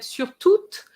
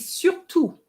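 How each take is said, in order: First: The final T sound is pronounced. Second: The final T sound is silent. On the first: The speaker calls it wrong. "you said sur toute" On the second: The speaker calls it right. "you don't pronounce the T"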